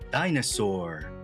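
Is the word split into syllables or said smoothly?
smooth. The syllables are joined smoothly without breaks. "붙여서 읽게 되니까"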